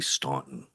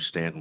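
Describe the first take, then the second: First: The name is said like 'Staunton'. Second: The name is said like 'Stanton'. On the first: The speaker calls it wrong. "whether they'll say Staunton. That's what my G P S said" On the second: The speaker calls it right. "pronounce it right"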